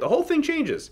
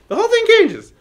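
First: The voice rises at the end. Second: The voice falls at the end.

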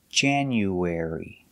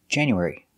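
First: The word is said at a slow pace. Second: The word is said at a fast pace.

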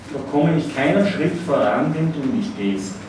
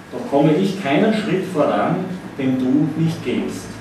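No difference in how they are said.

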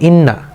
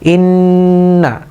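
First: The nasal sound is said quickly, not held. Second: The nasal sound is held for a longer time. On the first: The speaker calls it wrong. "এটা আমি যদি দ্রুত বলি তাহলে এভাবে হলো ইন্না" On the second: The speaker calls it right. "এই যে আমি ধরে রেখে সময় দিলাম"

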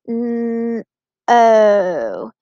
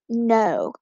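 First: The word is broken into separate sounds. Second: The word is said smoothly as one unit. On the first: "Let's say all the sounds in no" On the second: "So let's look at this first word"

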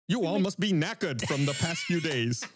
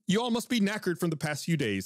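First: It is spoken with an attempted British accent. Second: It is spoken without a British accent. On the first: "I need at least one attempt" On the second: "Gus did not do a British accent with that"

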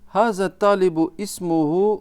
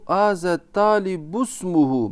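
First: A glottal stop separates talibu and ismuhu. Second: Talibu runs straight into smuhu without a stop. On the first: The speaker calls it wrong. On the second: The speaker calls it right.

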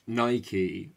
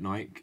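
First: It is said like the Greek god's name. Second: It is said the way people in the UK say it. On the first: "technically Nike is the correct pronunciation" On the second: "in the UK, people just call it Nike"

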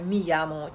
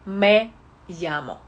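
First: The first word has an 'ee' vowel. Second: The first word has an 'eh' vowel. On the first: The speaker calls it wrong. "Не читаю «мі ямо»" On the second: The speaker calls it right. "я читаю «ме ямо»"

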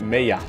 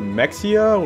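First: The middle consonant is a soft y sound. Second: The middle consonant is a hard ks sound. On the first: "the soft pronunciation for, like the implied Y" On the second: "like a hard X"

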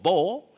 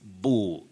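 First: The vowel sounds like 'bo'. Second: The vowel sounds like 'boo'. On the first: The speaker calls it wrong. "those who talked of bo" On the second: The speaker calls it right. "it's boo. You begin with the sounding boo"

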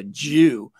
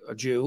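First: The word is said with a sneering, contemptuous tone. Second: The word is said in a plain, neutral way. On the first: It is used as an insult. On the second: It simply names a person's identity.

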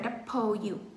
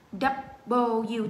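First: The b is said with a puff of air. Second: The b is said without a puff of air. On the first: The speaker calls it wrong. "chứ không phải là double U" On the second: The speaker calls it right. "Không bật hơi"

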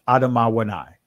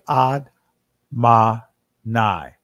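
First: The word is said in four syllables. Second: The word is said in three syllables. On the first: This is the ancient pronunciation. "in the ancient pronunciation of this" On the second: This is the form with the connectors. "with the connectors, it'd be Ad-ma-nai"

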